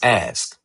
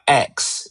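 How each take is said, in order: First: The s sound comes before the k. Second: The k sound comes before the s. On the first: The speaker calls it right. "it's ask" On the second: The speaker calls it wrong. "It's not X"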